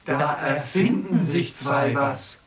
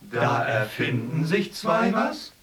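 First: Said in the usual way. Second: "Da erfinden sich zwei was?" rising on was as a question; questioning rise. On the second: Shown as a demonstration.

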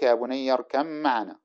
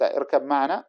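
First: "اركب معنا" as irkam-maʿanā, one long m; ba merged into mim. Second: "اركب معنا" as irkab maʿanā, the b sounded; unmerged ba. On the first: Teacher recites the example, ba merged into mim. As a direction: turn the ب of "اركب" into a doubled م. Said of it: "تقلب الباء ميما ثم تدغمها في الميم". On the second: Teacher cites the form before merging, unmerged ba. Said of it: "تقلب الباء ميما". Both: Shown as a demonstration.

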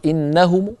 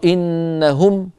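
First: Raised "innahumu", last vowel reduced; rawm ending. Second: Slow, stretched إنهم closing on m; raised "innahum", drawn out; stop on meem. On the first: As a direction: say إنهم with a faint short u after m. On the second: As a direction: hold إنهم and end on the m with no vowel. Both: Shown as a demonstration. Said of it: "يوقف عليها بالروم؟".

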